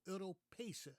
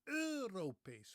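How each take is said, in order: First: The stress is on the second syllable. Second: The stress is on the first syllable. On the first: This is the older, established pronunciation. "The stress, that the way I learned that word, was on the second syllable" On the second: This is the newer pronunciation heard today. "with the stress on the first syllable"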